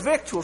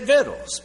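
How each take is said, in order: First: It is said the formal way, as in scripture. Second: It is said in a rural country dialect form. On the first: This is the word as written in scripture. The speaker calls it right. "But the word is victuals right out of the scripture" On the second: This is how uneducated old timers said it. The speaker calls it wrong. "country boy talk ... They just didn't know how to pronounce it ... And so they said victuals"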